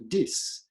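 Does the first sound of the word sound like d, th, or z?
d. It begins with a d sound. A speaker of Italian says it. "Italians, for instance, will turn this and that into dis"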